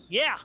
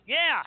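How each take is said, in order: First: A curt, careless "Yeah." thrown at the phone; bored yeah. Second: A louder, flat, offhand "Yeah." as if it's nobody; careless yeah. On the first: Host picking up a stranger's call, careless and curt. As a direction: answer the unknown caller with a lazy, offhand "Yeah.". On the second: Host mocking how he answered the call, curt and offhand. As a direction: toss out "Yeah." like you couldn't care less. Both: Retold or imitated. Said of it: "Just like that. Very professional".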